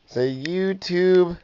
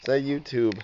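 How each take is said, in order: First: Slow coaxing. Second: Said in the usual way. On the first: Shown as a demonstration. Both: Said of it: "Look at me and say it".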